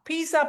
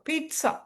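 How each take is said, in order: First: The middle consonant is a z sound. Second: The middle consonant is a ts sound. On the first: The speaker calls it wrong. "பீஸாங்கிறீங்கல்ல நம்ம ஊர்ல" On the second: The speaker calls it right. "பீட்டா பீட்சா இட்டு வரும்"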